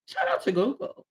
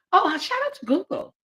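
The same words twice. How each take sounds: First: Said in the usual way. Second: Higher playful voice; chirpy thanks to Google; mock-cheerful shout out; jokey shout out.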